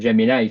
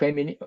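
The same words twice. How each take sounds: First: The name is pronounced in the English way. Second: The name is read letter by letter, Spanish-style. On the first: The name is said in its original pronunciation. "quien prefiera decir Gemini" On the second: The name is read as it is written. "yo me encuentro en la costumbre española de leemos las cosas tal cual"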